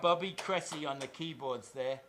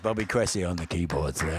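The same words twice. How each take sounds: First: It is said in his normal speaking voice. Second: It is said in a put-on radio announcer voice.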